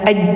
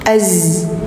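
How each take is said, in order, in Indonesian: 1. Konsonan itu bunyi j. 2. Konsonan itu bunyi z yang mengalir. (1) "enggak aj" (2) "tapi az"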